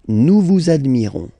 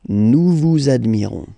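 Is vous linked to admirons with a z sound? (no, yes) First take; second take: yes; yes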